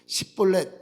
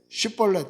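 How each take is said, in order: First: The word begins with a plain 's' sound. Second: The word begins with an 'sh' sound. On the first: The speaker calls it wrong. "근데 그렇게 못하는 거죠. 십볼렛 이렇게 하는 거예요" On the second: The speaker calls it right. "쉽볼렛 해봐라"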